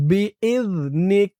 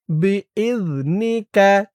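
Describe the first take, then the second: First: B is নিক with the vowel dropped on নিক; B is নিক, clipped at the pause; pausal stop. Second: B is নি কা with the last কা fully voiced; B is নি কা, vowel kept at the end; full final vowel. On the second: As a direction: end on a clear open কা. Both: Shown as a demonstration. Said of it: "উচ্চারণটা কেমন হবে খেয়াল করুন".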